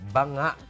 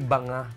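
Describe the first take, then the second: First: The stress is on the last syllable. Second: The stress is on the first syllable. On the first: The speaker calls it right. "May merong diin sa dulo" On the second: The speaker calls it wrong. "hindi banga"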